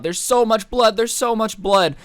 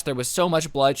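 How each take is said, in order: First: Higher and louder, panicked repeat; mock-frantic girl pleading; hysterical. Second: Said in the usual way. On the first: Hysterical girl at the door telling the guys, panicked. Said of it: "she's hysterical". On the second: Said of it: "She's still hysterical".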